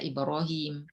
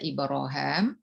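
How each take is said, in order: First: The last syllable is said with an 'i' vowel. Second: The last syllable is said with an 'a' vowel. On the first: "bisa dibaca ibrohim" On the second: "bisa dibaca ibroham"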